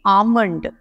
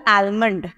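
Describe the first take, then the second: First: आमंड with the L left silent; आमंड, silent L, corrected form; correct pronunciation. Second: आलमंड with the L clearly sounded; आलमंड read as spelt, L pronounced; wrong pronunciation. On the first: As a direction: say आमंड, drop the L completely. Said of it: "एल जो है वो silent हो गया". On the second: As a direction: say आलमंड the common way, L spoken. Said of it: "जबकि ये आलमंड नहीं है". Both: Shown as a demonstration.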